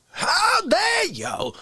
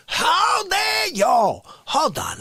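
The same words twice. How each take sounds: First: High slow wailing outrage; crying outrage. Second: High slow shouted outrage. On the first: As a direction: wail it in hammy outrage. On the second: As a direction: bellow it in mock fury. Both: Acted. Performed bit outburst.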